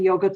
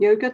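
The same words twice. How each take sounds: First: It is said with a British pronunciation. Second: It is said with a non-British pronunciation. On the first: This is how the speaker's home country says it. "I do say yogurt ... because I'm a Pom. That's how we say it" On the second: This is how people elsewhere say it. "not yogurt"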